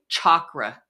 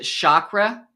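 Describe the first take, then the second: First: The first sound is 'ch' as in 'chalk'. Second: The first sound is not 'ch' as in 'chalk'. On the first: This is the true pronunciation. The speaker calls it right. "It's really chakra. Like a chalkboard" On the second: This is how most people say it. The speaker calls it wrong. "we pronounce it chakra"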